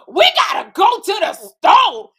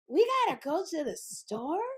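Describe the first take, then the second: First: It sounds confident, like Kim's line. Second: It sounds dim and confused, like a dumb blonde.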